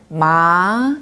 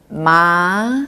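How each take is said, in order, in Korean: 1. 음이 중간에서 높게 부드럽게 올라갑니다. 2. 음이 중간에서 높게 부드럽게 올라갑니다.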